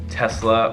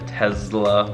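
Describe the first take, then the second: First: The middle consonant is a hissing S sound. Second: The middle consonant is a buzzing Z sound.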